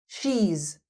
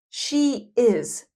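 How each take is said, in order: First: The words merge into one short syllable. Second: Two separate full words are said.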